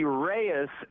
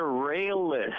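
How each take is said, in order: First: The middle consonant is a Y sound. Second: The middle consonant is an L sound. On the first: The speaker calls it right. "Reyes would be Reyes" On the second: The speaker calls it wrong. "instead of Rayless"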